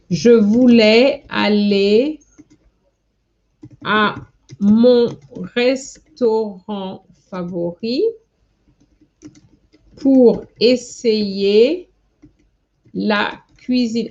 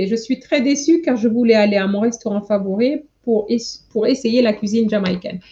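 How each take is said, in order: First: Slow, word by word, with long pauses; drawn-out dictating voice, each word set apart; slow dictation. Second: Fast, run-together read of the finished sentence; speedy recap of the whole line; quick read-through. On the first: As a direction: spell it out slowly as you type it. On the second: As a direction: rattle it off now that it's written. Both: Shown as a demonstration. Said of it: "This is what I was trying to write".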